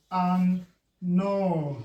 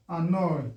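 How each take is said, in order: First: "Annoy" as an, pause, noy; split by syllable. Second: Said in the usual way. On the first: Shown as a demonstration. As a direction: break "Annoy" into two slow beats. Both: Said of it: "breaking it according to the syllable".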